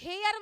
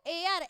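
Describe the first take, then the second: First: The word begins with an h sound. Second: The word begins with a vowel sound. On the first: The speaker calls it wrong. "इसका pronunciation हेयर मत कर देना" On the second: The speaker calls it right. "एयर बोला जाता है इसको"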